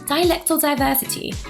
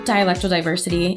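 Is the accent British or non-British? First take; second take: British; non-British. First: It is said in a British accent. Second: It is said in a non-British accent.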